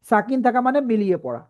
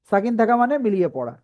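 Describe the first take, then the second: No difference in how they are said.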